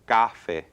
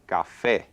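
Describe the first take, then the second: First: The stress is on the first syllable. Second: The stress is on the last syllable. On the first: The speaker calls it wrong. "If I were to emphasize the first syllable, it would be café" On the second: The speaker calls it right. "So we pronounce it café"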